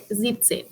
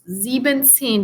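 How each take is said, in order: First: No en syllable follows sieb. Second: An extra en syllable follows sieb. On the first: The speaker calls it right. "So we say siebzehn" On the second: The speaker calls it wrong. "we don't say siebzehn because again, it doesn't sound as pretty"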